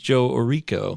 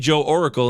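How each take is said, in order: First: The surname ends with a 'ko' sound. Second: The surname ends with a 'kul' sound. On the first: The speaker calls it right. "I finally learned that it's" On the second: The speaker calls it wrong. "I used to say"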